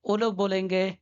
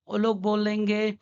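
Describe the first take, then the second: No difference in how they are said.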